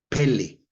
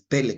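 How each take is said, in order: First: The stress is on the second syllable. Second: The stress is on the first syllable. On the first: The speaker calls it right. "así como Pelé el futbolista" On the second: The speaker calls it wrong. "no es Pele con acento en la primera E"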